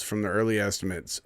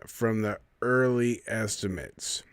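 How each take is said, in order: First: Said in the usual way. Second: Slow, leaning hard on "early"; "early" pressed out slowly and firmly; stress on early. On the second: Shown as a demonstration. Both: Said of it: "that's where they get you".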